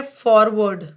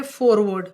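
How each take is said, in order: First: फॉरवर्ड with an open "aw" in the first syllable; forward pronunciation. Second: फॉरवर्ड with a rounded "oh", like "fore" in forefathers; foreword pronunciation. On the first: Teacher contrasting two look-alike words for students, open-vowel फॉरवर्ड. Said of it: "और ये word है फॉरवर्ड". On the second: Teacher showing students the second look-alike word, rounded-vowel फॉरवर्ड. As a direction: say फॉरवर्ड as "FOHR-word", first vowel closed. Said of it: "जैसे इसको ऐसे याद रखो". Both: Shown as a demonstration.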